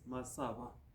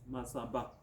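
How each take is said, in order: First: The middle consonant is a v sound. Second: The middle consonant is a b sound. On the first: This is how the Luya say the name. "they called this uh, mountain as Masava" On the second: This is how the Kisii say the name. "they pronounce it as"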